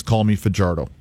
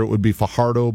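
First: Fajardo said fa-JAR-do; Fajardo with a J sound. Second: Fajardo said fa-HAR-do; Fajardo with an H sound. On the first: Player asking to be called this, Fajardo with a J sound. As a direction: say the j in Fajardo as an English J. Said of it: "and he said, you know". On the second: Player's name at the family get-together, Fajardo with an H sound. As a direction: say the j in Fajardo as a Spanish H. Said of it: "back home, if we're having". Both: Shown as a demonstration.

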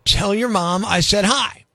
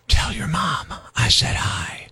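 First: Said in the usual way. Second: Slow, low whispered menace; creepy whisper. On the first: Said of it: "sounds okay said out loud". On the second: Shown as a demonstration. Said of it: "creepy when whispered".

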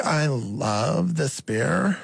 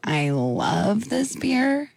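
First: Put-on slow creaky Valley Girl line; vocal fry. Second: Slow, creaky Kardashian drawl; Kardashian vocal fry. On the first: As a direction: stretch it out, fry the ends. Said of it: "try and say it like that". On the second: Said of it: "more like Kardashian ... slower". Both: Shown as a demonstration.

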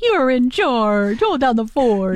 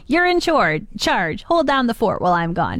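First: Slowed, mildly firm delivery; slow serious order. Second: Plain, matter-of-fact instruction; human voice. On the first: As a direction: hand the dog its duty slowly. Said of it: "Maybe they say it like that". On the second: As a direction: tell the dog like a person would. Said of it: "a human voice". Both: Retold or imitated.

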